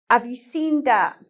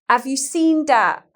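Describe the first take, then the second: No difference in how they are said.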